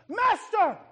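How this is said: It is cried out in fear.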